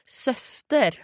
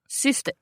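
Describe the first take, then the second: First: The first vowel is the rounded 'ö' sound. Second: The first vowel is the rounded 'y' sound. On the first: "is it like the O with the two dots? ... Then it would be syster" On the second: "So it's like the Y of Ystad"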